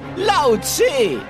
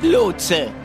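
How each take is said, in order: First: The first vowel is an 'ow' diphthong. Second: The first vowel is a plain 'o' sound. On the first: The speaker calls it right. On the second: The speaker calls it wrong. "Nicht Lotse"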